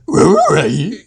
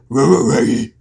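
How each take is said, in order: First: The Scooby voice includes a high-pitched squeak. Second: The Scooby voice lacks a high-pitched squeak.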